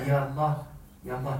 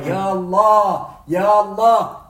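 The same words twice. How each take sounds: First: It is said quietly, in a low voice. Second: It is said loudly, in a raised voice.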